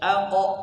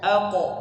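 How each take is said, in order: Both takes have the same delivery.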